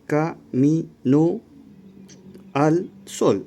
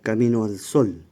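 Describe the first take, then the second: First: The two vowels are said as separate syllables. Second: The two vowels merge into one syllable. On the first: "Habrían cinco sílabas" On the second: "se pronuncia camino al sol"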